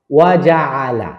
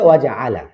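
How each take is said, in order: First: ওয়া জাআলা drawn out slowly, ওয়া apart from জাআলা; slow and separated. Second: ওয়া জাআলা run together as one quick phrase; joined together. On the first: Teacher breaking the phrase apart before joining it. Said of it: "একসাথে ওয়া জাআলা". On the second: Teacher joining the phrase into one smooth reading. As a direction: link ওয়া straight into জাআলা. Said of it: "একসাথে". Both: Shown as a demonstration.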